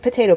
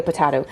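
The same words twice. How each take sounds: First: "potato" said pa-TAY-toe, long a in the middle; "potato" with the middle vowel as in day; potayto with long a. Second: "potato" said pa-TA-toe, the middle vowel as in cat; "potato" with a short flat middle a; potahto with flat a. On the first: Brushing off talk of her southern accent, "potato" as pa-TAY-toe. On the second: Brushing off talk of her southern accent, "potato" as pa-TA-toe. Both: Shown as a demonstration. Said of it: "what, potato, potato".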